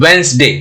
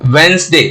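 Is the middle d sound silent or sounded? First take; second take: silent; silent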